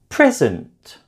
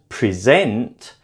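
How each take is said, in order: First: The stress is on the first syllable. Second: The stress is on the second syllable. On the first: It is a noun meaning a gift. "a present is a gift" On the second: It is a verb meaning to speak to people. "that suggests that I am speaking to somebody"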